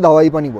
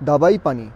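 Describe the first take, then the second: First: The second consonant is a w sound. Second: The second consonant is a b sound. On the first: It is how everyone says it. "এটাকে সবাই pronounce করে দাওয়াই পানি বলে" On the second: It follows the written spelling. "এখানে কিন্তু লেখা আছে দাওয়াই পানি বলে, D A বি A I P A N I"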